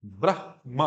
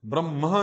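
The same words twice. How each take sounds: First: ब्रह्मा as "brah-ma", falling; h before m. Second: ब्रह्मा mispronounced as "bram-ha"; m before h. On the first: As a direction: sound the h of ब्रह्मा, then the m. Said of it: "हा पहले बोलना". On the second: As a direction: put the m of ब्रह्मा ahead of the h. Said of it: "ब्रह्मा नहीं". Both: Shown as a demonstration.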